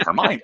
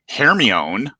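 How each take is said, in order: First: The name is said with the British film pronunciation. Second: The name is said with a reading-based American pronunciation. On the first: This is how the British pronounce the name. "Who pronounced it that way? The Brits" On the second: This is how Americans read the name before hearing it. "Hermione is how I pronounce it"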